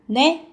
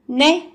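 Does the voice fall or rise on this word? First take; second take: rises; rises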